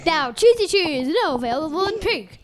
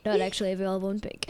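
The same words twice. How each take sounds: First: High, punchy sponsor plug; playful raised advertising voice; mock ad read. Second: Low, fast, softened aside; rapid dropped-voice disclaimer; quick disclaimer. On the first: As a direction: sell it like a silly commercial. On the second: Pretend. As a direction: rattle it off like ad small print. Disclaimer after mock ad.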